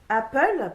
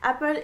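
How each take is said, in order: First: It is said with a French accent. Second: It is said with an English accent. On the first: The speaker calls it wrong. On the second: The speaker calls it right.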